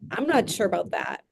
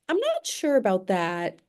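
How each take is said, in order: First: It is said in a rude, sharp tone. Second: It is said in a polite, mild tone.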